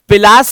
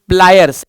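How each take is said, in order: First: A vowel separates p and l; it ends in 'las'. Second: P and l cluster together; it ends in 'ayers'. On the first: The speaker calls it wrong. "पिलास नहीं होता है" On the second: The speaker calls it right. "It's प्लायर्स"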